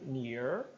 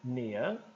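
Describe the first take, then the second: First: American accent with the final R pronounced. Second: British accent with the final R dropped. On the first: "Se for americano, eu digo near" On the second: "Britânico, nia"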